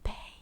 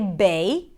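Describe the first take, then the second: First: The word is whispered without voice. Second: The word is spoken with full voice. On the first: "now you want to whisper it, whisper it with me" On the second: "If you want to say bay"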